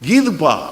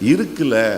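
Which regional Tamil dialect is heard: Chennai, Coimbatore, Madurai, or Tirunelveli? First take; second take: Chennai; Tirunelveli. First: It is said in Chennai Tamil dialect. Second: It is said in Tirunelveli Tamil dialect. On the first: "சென்னைக்கு வந்துருச்சுன்னு வைங்க, எங்க ஊர்ல எல்லாத்தையும் நாங்க சுருக்கிடுவோம்" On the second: "திருநெல்வேலி வர்றதுக்குள்ள என்னதான் மாறிடுது?"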